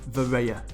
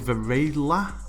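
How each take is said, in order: First: The name is said without an L sound. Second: The name is said with an L sound. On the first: The speaker calls it right. "he says it's" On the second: The speaker calls it wrong. "I thought it was Varela, but you don't say the L"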